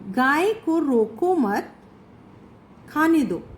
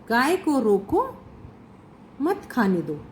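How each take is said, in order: First: The pause comes after the word mat. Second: The pause comes after the word roko. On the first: Do not stop the cow; let it eat. "यानी कि गाय को रोकना नहीं है, उसे खाने दो" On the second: Stop the cow; do not let it eat. "विराम चिन्ह दूसरी जगह पर लगा दिया गया है"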